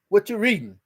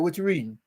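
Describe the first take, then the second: First: It is asked in a harsh, menacing tone. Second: It is asked in a plain, casual tone. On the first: The asker is becoming threatening. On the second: It is a simple question.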